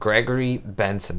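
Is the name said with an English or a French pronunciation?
English. The name is said with English sounds. The speaker calls it wrong. "That's not how you say it"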